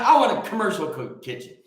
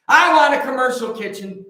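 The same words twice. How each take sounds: First: Said in the usual way. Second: Louder, pushing the word kitchen hard; louder repeat of I want a commercial kitchen; louder insistence. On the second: Real, not acted. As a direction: hammer the wish home, louder. Repeats wish, second time louder.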